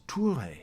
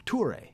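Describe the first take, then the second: First: Toure said the French way, tou-RAY, stress on the end; French-accented name. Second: Toure again, tou-RAY, higher pitched and laughing; exaggerated French accent. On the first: Real, not acted. Host naming his co-host Toure, French accent. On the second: Shown as a demonstration. Owning the habit, repeats Toure in hammed-up French accent. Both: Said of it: "I can't help but pronounce it with a French accent".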